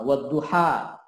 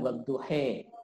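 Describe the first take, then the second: First: The word ends with an open a vowel. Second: The word ends with an e-like vowel. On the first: This is the common reading. "Misalnya uh, wadduha" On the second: This is a variant dialect reading used by some imams. "beberapa imam menggunakan bacaan wadduhe"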